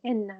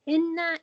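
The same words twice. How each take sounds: First: Said in the usual way. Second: "inna" said high and loud, stressed; emphatic inna. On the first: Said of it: "means indeed". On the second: Shown as a demonstration. Teacher showing Arabic emphasis, "inna" stressed high and loud. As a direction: lean hard on "inna" to show its emphasis. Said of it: "is for emphasizing".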